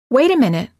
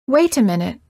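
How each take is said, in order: First: The T in 'wait' is a quick tapped D. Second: The T in 'wait' is a clear T. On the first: "The second sentence is an American sound" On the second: "The first sentence of each pair is pronounced with a foreign accent or a British accent"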